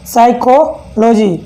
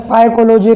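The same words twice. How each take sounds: First: साइकोलॉजी slowly, starting on s; teacher's slow model साइकोलॉजी, no p sound; correct silent-p pronunciation. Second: पाइकोलॉजी starting on a p instead of s; wrong pronunciation, p sounded. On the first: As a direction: break साइकोलॉजी into slow parts, साइको then लॉजी. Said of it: "अभी से पी को मत पढ़ना". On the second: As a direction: misread the silent p aloud in पाइकोलॉजी. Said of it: "पी को मत पढ़ना यहाँ पर". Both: Shown as a demonstration.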